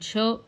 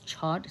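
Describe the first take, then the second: First: The word ends on the vowel, no final d. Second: The word ends with an audible d sound.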